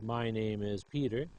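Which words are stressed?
every word. Every word gets about the same stress. The speaker calls it wrong. "We do not read the first sentence as"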